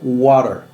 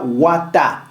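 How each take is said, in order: First: The middle consonant is a quick D-like flap. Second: The middle consonant is a crisp T sound. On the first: The speaker calls it right. "ça sonne water" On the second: The speaker calls it wrong. "ne se dit pas wata"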